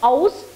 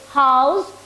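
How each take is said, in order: First: The word starts without an h sound. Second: The word starts with a clear h sound. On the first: The speaker calls it wrong. "I have seen many of the kids pronounce it as aus, which is wrong" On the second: The speaker calls it right. "H must be pronounced in totality"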